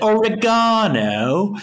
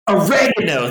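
First: Oregano is said with a British pronunciation. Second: Oregano is said with an American pronunciation.

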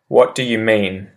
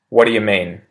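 First: Every word is said fully and separately. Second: The words are run together and reduced, quickly. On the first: "I say the proper English phrase" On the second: "I'll repeat the pronunciation shift one"

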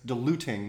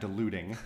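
First: The middle t is a clear t sound. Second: The middle t is a soft flap. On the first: The speaker calls it right. "That's diluting" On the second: The speaker calls it wrong. "not diluting. ... that's called alveolar flapping"

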